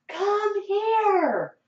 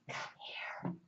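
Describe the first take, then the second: First: It is yelled loudly. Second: It is whispered quietly.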